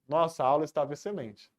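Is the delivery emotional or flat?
flat. It is said flatly, with little feeling. A plain statement ending in a period. "Se está um ponto final apenas, a entonação que você tem que perceber é essa"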